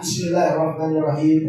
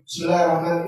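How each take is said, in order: First: The phrase is said slowly and carefully. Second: The phrase is said quickly and hurriedly. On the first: The speaker calls it right. "mesti rapi. ... Tertata" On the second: The speaker calls it wrong. "Nih cepatnya"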